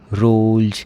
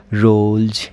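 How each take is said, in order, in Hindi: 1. शब्द का अंत भनभनाती हुई z ध्वनि से होता है। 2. शब्द का अंत भनभनाती हुई z ध्वनि से होता है।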